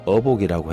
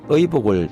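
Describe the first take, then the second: First: The first vowel is a plain 'eo'. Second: The first vowel is the diphthong 'ui'. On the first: The speaker calls it wrong. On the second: The speaker calls it right.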